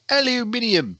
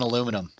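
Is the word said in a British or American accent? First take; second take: British; American. First: The word is said in a British accent. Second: The word is said in an American accent. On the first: Someone else said it that way. "the one British announcer kept on saying aluminium" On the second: This is the speaker's own usual word. "It's just fucking aluminum"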